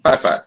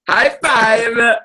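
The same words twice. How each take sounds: First: Said in the usual way. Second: Pressing a co-host for a high five, eager call; excited call. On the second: Real, not acted. Repeating the unanswered high five.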